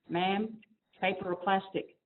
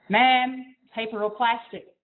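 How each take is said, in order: First: It is said in a small, quiet voice. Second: It is said in a louder voice. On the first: "this little voice" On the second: "in a little louder voice"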